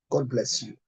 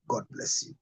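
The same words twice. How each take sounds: First: Said in the usual way. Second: Whispered blessing. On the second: Shown as a demonstration. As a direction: whisper "God bless you" softly, voice dropped to a breath. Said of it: "I repeat".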